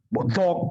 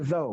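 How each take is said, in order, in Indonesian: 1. Kata itu berakhir dengan vokal pendek dan k. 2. Kata itu berakhir dengan vokal meluncur, tidak ada k. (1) "nggak ada zok" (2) "baru benar itu zau"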